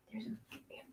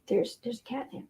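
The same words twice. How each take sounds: First: Barely audible whisper. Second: Soft, hushed, voiced murmur; hushed pet talk. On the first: Owner whispers to the cat about the catnip. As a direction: breathe it out with no voice. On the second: Owner murmurs softly, showing the cat catnip. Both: Real, not acted.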